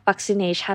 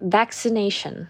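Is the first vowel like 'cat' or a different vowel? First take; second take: different vowel; cat vowel. First: The first vowel is not the 'cat' vowel. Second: The first vowel is the 'cat' vowel. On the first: The speaker calls it wrong. "เราจะไม่อ่านว่า" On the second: The speaker calls it right. "เราจะอ่านว่า"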